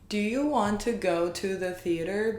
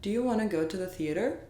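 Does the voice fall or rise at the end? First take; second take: fall; rise. First: The voice does not rise at the end. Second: The voice rises at the very end. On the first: The speaker calls it wrong. "so not" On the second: The speaker calls it right. "save it for the last"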